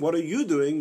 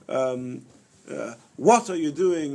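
First: The word 'you' is stressed. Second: The word 'what' is stressed. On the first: The speaker asks why this person is doing it rather than someone else. "why are you doing it and not somebody else?" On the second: The speaker is surprised by what the person is doing. "what in the world are you doing?"

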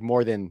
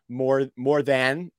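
First: The word 'than' is said quickly, like 'then'. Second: The word 'than' is said slowly and clearly. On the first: "if I'm doing it in a fast sentence" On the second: "when I say like more than"

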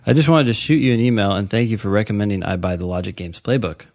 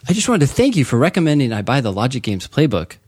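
First: It is read in a plain, flat way. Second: It is read with lively enthusiasm.

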